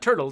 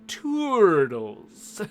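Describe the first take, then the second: First: The word is said at a normal quick pace. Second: The word is drawn out and said slowly. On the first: "it's not turtles" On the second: "makes you read it slowly"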